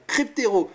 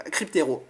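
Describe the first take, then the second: First: Louder, sure Cryptero; name remembered. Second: Said in the usual way. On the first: Real, not acted. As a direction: blurt out Cryptero as it comes back. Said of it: "ouais c'était Cryptero". (Cryptero lancé plus fort, enfin retrouvé) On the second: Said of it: "je crois que c'est ça".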